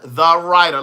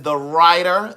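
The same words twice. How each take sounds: First: "The Writer" punched loud; emphatic repeat. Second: Said in the usual way. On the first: Real, not acted. Repeating his Cash App name for viewers, emphatically. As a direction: hit "The Writer" hard, falling at the end.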